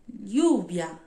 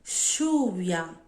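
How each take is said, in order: First: The ll sounds like a palatal ly sound. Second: The ll sounds like a sh sound. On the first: "som da Espanha" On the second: "Som de X"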